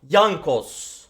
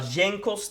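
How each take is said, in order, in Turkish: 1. Ad, 'yes' kelimesindeki gibi 'y' sesiyle başlar. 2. Ad, 'jam' kelimesindeki gibi 'j' sesiyle başlar. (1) "Yankos. Anladınız mı?" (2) "Arkadaşlar Cenkos diye okunmuyor"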